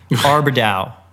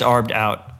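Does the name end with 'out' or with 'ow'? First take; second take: ow; out. First: The name ends in 'ow' with no final t. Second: The name ends in 'out' with a final t. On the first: The speaker calls it wrong. "I actually thought it was French, and it was Arbedow" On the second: The speaker calls it right. "no, it's Arbed Out"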